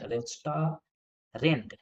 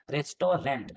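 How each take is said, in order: First: "restaurant" drawn out very slowly, each syllable separate; slowly sounded out. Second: Said in the usual way. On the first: Shown as a demonstration. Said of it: "rent होगा ना". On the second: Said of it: "दोनों गलत हैं".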